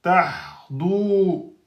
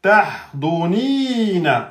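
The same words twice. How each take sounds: First: Tahdu with the vowel held two beats; deliberate mistake in length; wrong length demo. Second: Tahdunina slowly, vowels at normal length; corrected model reading; correct recitation. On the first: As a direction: stretch the u in tahdu too long. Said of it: "quand j'ai dit tahdu ... deux temps". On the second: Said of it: "Là, c'est bon". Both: Shown as a demonstration.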